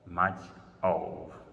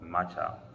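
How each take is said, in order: First: Two separate words are said clearly. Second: The words blend into one word, matcha. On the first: "much plus of" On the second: "Matcha means much of"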